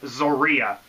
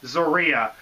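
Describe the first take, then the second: First: The name begins with a Z sound. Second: The name begins with a Z sound.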